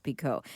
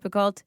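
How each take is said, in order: First: Picoult with silent L and T; correct pronunciation of Picoult. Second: Picoult with the L and T sounded; wrong pronunciation of Picoult. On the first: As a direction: say Picoult as "PEE-koh". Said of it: "it's pronounced Picoult". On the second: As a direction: say Picoult as spelt, ending "-colt". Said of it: "it's not pronounced Picoult". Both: Shown as a demonstration.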